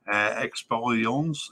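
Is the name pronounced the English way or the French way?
French. The name is pronounced with French sounds. "probably Expérience in French"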